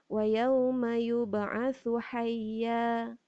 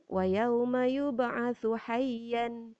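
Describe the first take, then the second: First: The last word ends on a long open vowel. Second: The last word ends with an n sound. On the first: The speaker calls it right. "Kita tukarkan kepada fathah" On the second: The speaker calls it wrong. "Tak boleh macam tu"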